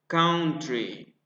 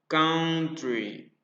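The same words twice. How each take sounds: The two takes are said the same way.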